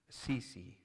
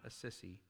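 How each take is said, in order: First: The name does not sound like 'a sissy'. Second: The name sounds like the phrase 'a sissy'. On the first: The speaker calls it right. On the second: The speaker calls it wrong.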